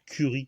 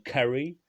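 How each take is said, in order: First: "curry" said the French way, "ku-ri" with a French u; "curry" with the French u sound; French pronunciation. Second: "curry" said the English way, with an "a" sound like "karry"; "curry" pronounced as in English, "karry"; English pronunciation. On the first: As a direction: say "curry" as a French word, "kuri". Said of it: "prononcé en français curry". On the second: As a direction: give "curry" its English vowel, a bit higher and louder. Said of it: "c'est, en anglais". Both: Shown as a demonstration.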